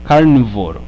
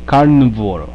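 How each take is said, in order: The two takes are said the same way.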